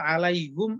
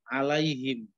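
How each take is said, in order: First: The pronoun suffix is said with a u vowel. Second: The pronoun suffix is said with an i vowel. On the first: It is heavier on the tongue but allowed. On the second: It is easier to pronounce. "Tujuannya memudahkan"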